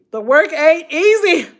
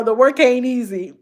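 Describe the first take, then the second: First: The work ain't easy, said higher with weight on easy; emphatic repeat. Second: Said in the usual way. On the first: Real, not acted. Telling her viewers the work is hard, emphatic and higher. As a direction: hammer home easy on the repeat. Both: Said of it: "I'm gonna tell y'all".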